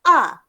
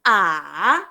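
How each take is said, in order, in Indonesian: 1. Nadanya turun tajam, terdengar marah. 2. Nadanya turun dulu, lalu naik lagi. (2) "berdengung. Turun. Naik"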